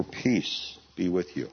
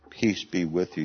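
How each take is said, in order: First: Calm frightened men, unhurried; gentle quoted greeting. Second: Said in the usual way. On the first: Acted. Quoting the risen Lord's greeting.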